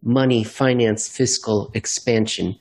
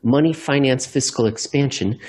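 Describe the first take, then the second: First: Slow, spaced-out words; slow demonstration, word by word; said really slow. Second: Quick run-through of the phrase; brisk, unbroken delivery; said fast. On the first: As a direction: draw each word out deliberately. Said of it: "if you say it really slow". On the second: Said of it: "if you say it really fast". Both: Shown as a demonstration.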